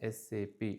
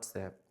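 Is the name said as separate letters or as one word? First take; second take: letters; one word. First: It is spoken as three separate letters. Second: It is spoken as a single word. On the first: The speaker calls it right. "We are supposed to pronounce it as S A P" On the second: The speaker calls it wrong. "not S A P"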